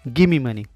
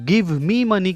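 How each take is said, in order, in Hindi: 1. 'Give me' मिलकर एक शब्द 'gimme' बन जाता है। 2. 'give me' के दोनों शब्द अलग-अलग बोले जाते हैं। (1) "शॉर्ट फॉर्म बोला जाएगा" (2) "गिव मी मनी की जगह पे"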